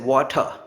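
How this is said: The final r sound is dropped. "western accent, water, they don't say r"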